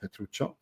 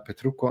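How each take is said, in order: First: The name is said with a 'ch' sound. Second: The name is said with a 'k' sound. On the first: The speaker calls it wrong. "Sorry for mispronouncing your name" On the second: The speaker calls it right. "Petrucco, not Petruccio"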